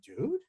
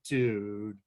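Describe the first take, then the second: First: It sounds like a question. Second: It sounds dismayed and disappointed. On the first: The speaker is asking something. "If you're to ask a question" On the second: The speaker is disappointed. "express consternation and disappointment"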